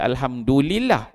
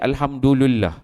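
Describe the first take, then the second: First: It is said as alhamdu lillah, with i. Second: It is said as alhamdu lullah, with u. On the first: This is how it is usually recited. The speaker calls it right. "Kita alhamdulillah" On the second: The speaker calls it wrong. "nak bagi depan juga"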